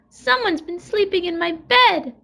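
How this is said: It is said with a wee little growl.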